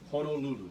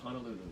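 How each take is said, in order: First: The first vowel sounds like 'oh'. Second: The first vowel sounds like 'ah'. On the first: The speaker calls it right. "No, it's Hono, right?" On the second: The speaker calls it wrong. "there's no such place as Honolulu. There's, do you see any A's in the word H O N O?"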